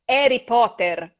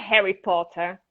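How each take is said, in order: First: The name begins with no H sound. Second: The name begins with an audible H sound. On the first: The speaker calls it right. "eu sofri com esse sotaque dele sem o H" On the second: The speaker calls it wrong. "primeiramente não é Harry Potter"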